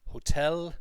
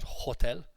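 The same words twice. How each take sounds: First: HOTEL punched on the second syllable; correct stress. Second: HOTEL stressed on the first syllable; wrong stress. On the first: Teacher correcting the class's word, stressed on TEL. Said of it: "Other pronunciation issues that came up". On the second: Teacher showing class the mistake, stressed on HO. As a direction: hit HO in "hotel". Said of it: "not hotel". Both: Shown as a demonstration.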